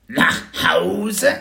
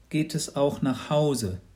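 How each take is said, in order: First: High, loud dragon echo of Nach Hause; a hatchling puzzled by the idea of home; rising wondering creature question; surprised baby dragon. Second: Said in the usual way. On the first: Acted.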